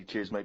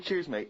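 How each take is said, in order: First: Timid. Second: Said in the usual way. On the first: Shown as a demonstration. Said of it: "because I'd be a little bit scared of them". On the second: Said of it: "when you said".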